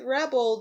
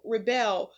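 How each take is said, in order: First: "rebel" stressed on the first syllable, REB-el, the noun. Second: "rebel" stressed on the second syllable, re-BEL, the verb. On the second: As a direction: say "rebel" as re-BEL, to rise against. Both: Shown as a demonstration. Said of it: "rebel or rebel".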